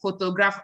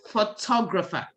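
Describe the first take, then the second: First: It is said the usual Nigerian way. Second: It is said the standard, non-Nigerian way. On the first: The speaker calls it wrong. "I know in Nigeria we say photographer" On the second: The speaker calls it right. "It's photographer"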